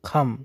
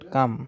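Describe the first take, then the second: First: The first k sound has a breath puff. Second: The first k sound has no breath puff. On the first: The speaker calls it right. "খ হিসেবে উচ্চারণ হবে খাম" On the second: The speaker calls it wrong. "Not কাম"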